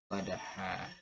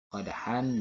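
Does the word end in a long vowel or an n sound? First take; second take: long vowel; n sound. First: The word ends with a lengthened vowel, no n. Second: The word ends with a short vowel plus n.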